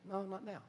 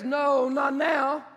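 First: Soft refusal. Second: Emphatic refusal. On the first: God tells David. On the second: Echoing God's refusal. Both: Acted.

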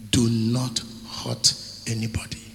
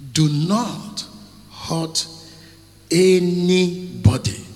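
First: Said in the usual way. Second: "Do not hurt anybody" each word spaced, anybody drawn out loud; slow emphatic repeat. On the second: Shown as a demonstration. Preacher driving home the warning word by word. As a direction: hammer out "anybody" slowly and louder.

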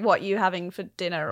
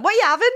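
First: Said in the usual way. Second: High, loud northern English lilt; northern Leeds accent. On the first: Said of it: "people say when it's like". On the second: Retold or imitated. Actress quoting what people say in Leeds, high northern accent. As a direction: ask it like a Leeds local, pitched up. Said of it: "It's what everyone".

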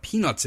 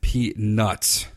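First: Said in the usual way. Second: PEANUTS said on its own, carefully spelled out in sound; careful clarification. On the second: Real, not acted. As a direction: enunciate "Peanuts" distinctly, as if correcting a mishearing. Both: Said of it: "And I said".

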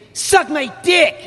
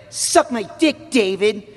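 First: Put-on higher, slow, louder bratty kid yell; Max character shout. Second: Higher, slow, bratty kid cartoon voice; Max character voice. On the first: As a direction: scream it at the counsellor, full brat mode. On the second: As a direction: spit it at the camp counsellor like a brat. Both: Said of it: "that's how I get into character".

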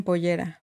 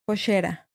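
First: Said in the usual way. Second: Pollera with ll said as sh, poshera; Rioplatense pollera. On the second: Shown as a demonstration. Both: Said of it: "falda le dicen pollera".

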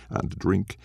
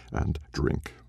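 First: Said in the usual way. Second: And drink breathed away, softer; fading whisper. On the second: A narrator's reading. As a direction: let the last and drink die to a breath. Repeated drink, last one fades.

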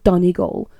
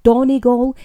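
First: Said in the usual way. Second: DONEGAL with Cockney vowels; Cockney pronunciation. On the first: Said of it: "cannot wrap around those vowels properly". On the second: Retold or imitated. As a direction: say Donegal as a Cockney would get it wrong. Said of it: "My dad's a Cockney".

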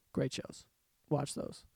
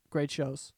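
First: Great shows breathed out softer; a soft whispered aside; hushed. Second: Said in the usual way. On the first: Real, not acted. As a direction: drop to a whisper for the echo. Repeated recommendation, second hushed.

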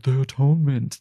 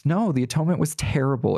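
First: Put-on, grandly airy imitation; mock reverence. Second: Firm NO, then "terrible" hit hard; raised, insistent voice stressing "terrible"; blunt correction. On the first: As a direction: mimic people saying it with exaggerated awe. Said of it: "Why are we like". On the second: Real, not acted. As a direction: contradict flatly with weight on "No" and "terrible". Correcting the mocked reverent version.

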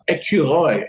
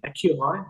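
First: Put-on Écureuil said the French way, falling, as a native kid would; Écureuil as a French child says it, flat and sure; French pronunciation. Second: Écureuil echoed back as an astonished question, rising at the end; Écureuil, a baffled learner's rising echo; incredulous repeat. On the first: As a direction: give Écureuil crisply in French, falling at the end. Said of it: "what is squirrel?". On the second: Retold or imitated. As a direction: repeat Écureuil as if you can't believe the word.

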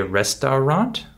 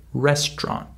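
First: "restaurant" as "res-tau-rant", middle vowel sounded; all three syllables. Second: "restaurant" as two-beat "rest-ront"; skipped middle syllable. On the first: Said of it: "We don't say restaurant". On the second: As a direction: drop the middle vowel of "restaurant". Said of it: "We skip the middle syllable". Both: Shown as a demonstration.

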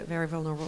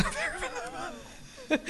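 First: Said in the usual way. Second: Very high, laughing and fragile; laughing squeak. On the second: Shown as a demonstration. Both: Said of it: "from very together to very vulnerable".

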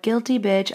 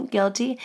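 First: Said in the usual way. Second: A laughing, higher "Guilty". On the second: Real, not acted. Admits it again, laughing.

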